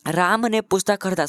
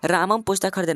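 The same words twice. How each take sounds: First: Said in the usual way. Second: रामम said with a doubled m, running straight into पुस्तक; wrong form read aloud. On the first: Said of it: "सही लग रहा है". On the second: Shown as a demonstration. Teacher reads the wrong sentence to his students, रामम run together. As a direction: read "रामम पुस्तक खरीदा" as the faulty version, रामम clipped together. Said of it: "नहीं, गलत है".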